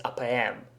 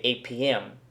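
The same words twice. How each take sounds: First: "A P M" as "ah peh em"; Russian letter names. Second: "A P M" as "ay pee em"; English letter names. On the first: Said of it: "nobody says". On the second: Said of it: "we usually just say". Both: Shown as a demonstration.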